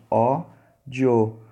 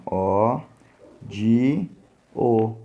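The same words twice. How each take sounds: First: "ódio" split slowly in two, ó-dio, keeping "dio" together; two syllables. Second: "ódio" wrongly split in three, ó-di-o; three syllables. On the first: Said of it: "é na penúltima sílaba tônica". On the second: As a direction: break "ódio" into ó, di, o with pauses between. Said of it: "Tentar classificar ódio da seguinte forma". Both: Shown as a demonstration.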